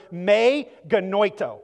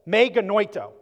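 First: "me genoito" said as may geh-NOY-toh; Greek phrase. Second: "Me genoito" said again as may geh-NOY-toh, clearly; Greek phrase repeated. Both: Shown as a demonstration. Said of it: "It's the word".

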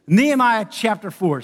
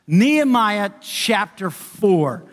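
First: Said in the usual way. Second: Drawn-out, deliberate reading of the chapter; preacher slowly announcing the passage to the congregation; slow announcement. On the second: Shown as a demonstration. Slow and deliberate.

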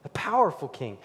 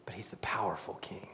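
First: Said in the usual way. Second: Soft awed whisper; hushed whisper. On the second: Real, not acted. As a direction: breathe "powerful" like a secret. Whispered then repeated aloud.

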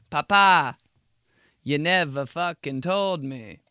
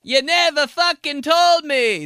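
First: High, slow protest; whiny kid. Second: Loud, high, slow Italian complaint; Italian accent. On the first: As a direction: plead back at dad. Kid talking back to dad. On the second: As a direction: wail it Italian-style. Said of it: "start being all Italian". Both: Retold or imitated.

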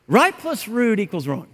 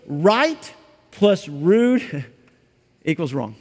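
First: Said in the usual way. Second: Slow, weighty statement; slow emphatic. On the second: Shown as a demonstration. Preacher drives home that right plus rude equals wrong, slow and weighty. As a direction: lay it down slowly, word by word. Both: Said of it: "Tone matters".

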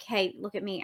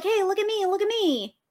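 First: Low soft hey look at me; lower and softer. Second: Bright high sing-song hey look at me; high call for attention. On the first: Players mimicking the butterflies, low and soft. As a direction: say it low and soft, barely calling. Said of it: "We're like". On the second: Butterflies calling to the player, high and sing-song. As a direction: call out high to catch their eye. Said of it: "they're like". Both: Shown as a demonstration.

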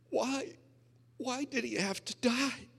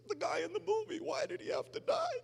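First: Put-on high, tearful quote of the girlfriend; imitating crying wife. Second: Much higher, hammed-up wailing quote; wailing girlfriend. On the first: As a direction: voice the weeping girlfriend's question. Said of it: "And she's crying". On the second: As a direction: wail it like a heartbroken girlfriend. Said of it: "And she says".

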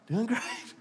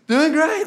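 First: Soft, higher, smiling fake-cheerful reply; a hushed, sugary put-on brightness; church smile. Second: Much higher, louder hammed-up chirpy fine; cartoonish chipper mock reply; exaggerated church smile. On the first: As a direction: say it through a pasted-on smile. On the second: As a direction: push the fake smile over the top. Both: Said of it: "Church smile".

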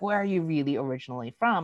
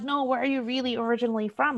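First: Lightly imitated probing stranger; understated mock curiosity; repeat questioner. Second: High-pitched mock curious questioner; insistent questioner. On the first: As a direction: ask it near your usual pitch. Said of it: "the eighth person that comes up". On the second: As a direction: imitate a nosy stranger, pitched well up. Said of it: "there are days when I am doing fine".

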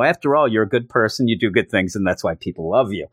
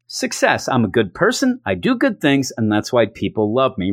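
First: Mock reassurance. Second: Mock self-satisfied. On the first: [name] quoting Cable's boast after it backfires, dry mock reassurance. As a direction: toss the boast back at him, falling away. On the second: Cable after handing over his gift, mock self-satisfied. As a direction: announce it proudly, dropping at the end. Cable congratulates himself, quote.

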